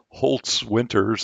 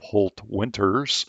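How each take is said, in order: First: The first part ends with an added s sound. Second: The first part ends with a plain t sound. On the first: The speaker calls it wrong. "say that incorrectly" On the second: The speaker calls it right. "instead of Holt-Winters"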